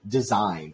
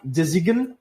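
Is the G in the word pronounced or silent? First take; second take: silent; pronounced. First: The G is silent. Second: The G is pronounced. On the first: The speaker calls it right. "we say design" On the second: The speaker calls it wrong. "We do not say uh, design"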